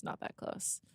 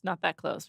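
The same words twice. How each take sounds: First: Whispered under her breath; whispered aside. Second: Said in the usual way. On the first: Real, not acted. Teasing herself to her co-host, whispered. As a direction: drop to a whisper for the repeat. Muttered repeat, self-correcting.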